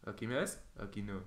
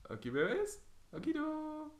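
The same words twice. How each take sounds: First: Said in the usual way. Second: High-pitched teasing peekaboo; burla juguetona. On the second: Pretend. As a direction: repeat it as a silly squeaky taunt. Peekaboo game, teasing repeat. (burla juguetona con voz aguda)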